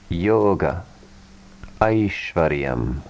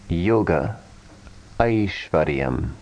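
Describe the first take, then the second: No difference in how they are said.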